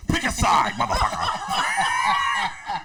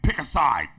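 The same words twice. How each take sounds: First: Loud, high mimicked ultimatum; Papa Rick impression. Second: Restrained first demand; lightly mimicked ultimatum; Papa Rick impression. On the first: Rick demanding friend side against Prince, shouted impression. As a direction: escalate into a drawn-out demand. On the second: Rick making friend choose between him and Prince, restrained impression. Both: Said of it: "he's like".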